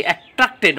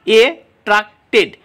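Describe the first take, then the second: First: Said in the usual way. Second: "এ ট্রাক্টেড" split up with clear gaps; syllable by syllable. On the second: Shown as a demonstration. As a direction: say "এ ট্রাক্টেড" one piece at a time. ("এ ট্রাক্টেড" আলাদা আলাদা সিলেবলে) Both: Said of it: "syllable রয়েছে".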